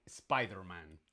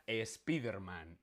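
First: "Spiderman" slowly with SPY; English pronunciation. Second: "Spiderman" as es-PEE-der-man; Spanish pronunciation. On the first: Teacher showing the form to avoid, English pronunciation. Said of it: "no Spiderman". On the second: Teacher stating the correct form, Spanish pronunciation. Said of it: "Esta palabra se pronuncia". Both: Shown as a demonstration.

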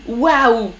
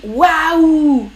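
First: Said in the usual way. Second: A bright, louder gasp of wonder; surprised waouh. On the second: Shown as a demonstration. Teacher showing the chat a surprised waouh. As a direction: show how a French speaker exclaims in surprise. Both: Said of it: "quand on est surpris".

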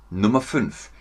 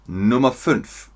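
The two takes are said the same way.

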